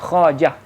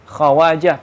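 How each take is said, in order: First: The word is said without a 'wa' syllable. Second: The word is said with a 'wa' syllable. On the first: "tapi wawnya nggak dibaca" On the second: "pakai waw"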